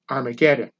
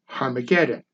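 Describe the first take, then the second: First: The word begins with a vowel sound. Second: The word begins with an h sound. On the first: This is the usual modern form. "as we pronounce it today" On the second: This is the original Greek form. "correctly pronounced in Greek as"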